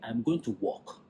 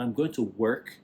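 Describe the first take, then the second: First: It is said in a Nigerian accent. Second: It is said in a standard accent. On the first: It could be heard as going for a walk. The speaker calls it wrong. "Nigerians will say" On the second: It is clear the speaker means their job. The speaker calls it right. "when you pronounce words properly"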